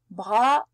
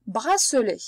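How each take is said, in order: First: "bracelet" broken into three separate syllables. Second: Said in the usual way. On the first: Shown as a demonstration. Teacher splitting the word to find the S sound, "bracelet" syllable by syllable. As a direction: say "bracelet" with a clear pause after each syllable. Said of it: "Cherchons. On cherche, n'oublie pas le son S". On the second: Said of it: "Dans bracelet".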